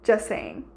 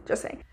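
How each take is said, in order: First: Said in the usual way. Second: Repeated under the breath, much softer; quiet echo. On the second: Real, not acted. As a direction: toss it off again as a soft aside. Repeats the quip, then echoes it.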